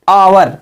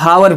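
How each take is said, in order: First: The word begins with a vowel, no h. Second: The word begins with an audible h sound. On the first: The speaker calls it right. "आवर means घंटा" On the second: The speaker calls it wrong. "पर कुछ बच्चे हावर पढ़ देते हैं, वो गलत है दोस्तों।"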